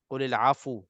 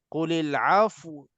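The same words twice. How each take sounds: First: The f takes a short u vowel after it. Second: The f has no vowel and glides into w. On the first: The speaker calls it wrong. "fa ni tiba-tiba jadi bagi depan" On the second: The speaker calls it right. "kita bukannya berhenti di pada fa, tapi nakkan kepada sukun wa tu"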